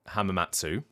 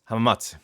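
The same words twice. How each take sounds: First: The final vowel is fully pronounced. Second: The final vowel is faint but present. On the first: "some people are pronouncing it hamamatsu" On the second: "it's not that the oo is not there at all"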